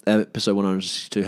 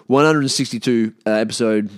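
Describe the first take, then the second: First: Said in the usual way. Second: Loud announcement. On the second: Real, not acted. Announcing the episode number to listeners, loudly.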